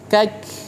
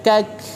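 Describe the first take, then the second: The two takes are said the same way.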